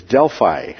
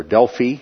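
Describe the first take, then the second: First: Delphi said as DEL-fye; Delphi ending in "fye". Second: Delphi said as DEL-fee; Delphi ending in "fee". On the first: Lecturer pointing out a map site, Delphi pronounced DEL-fye. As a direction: say Delphi with a long-i ending, like "eye". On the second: Lecturer giving the other pronunciation, Delphi said DEL-fee. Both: Shown as a demonstration. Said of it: "as it's also pronounced".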